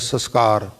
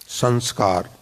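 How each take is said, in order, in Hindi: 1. पहला अक्षर बिना अनुनासिक ध्वनि के बोला जाता है। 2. पहला अक्षर अनुनासिक ध्वनि के साथ बोला जाता है। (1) "ਸੱਸਾ ਸੱਸਾ ਕੱਕੇ ਕੰਨਾ ਰਾ ਰਾ। ਵੈਸੇ ਇਹ ਉਚਾਰਨ ਸ਼ੁੱਧ ਨਹੀਂ" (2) "ਸੱਸੇ ਤੇ ਟਿੱਪੀ ਲਗਾ ਕੇ"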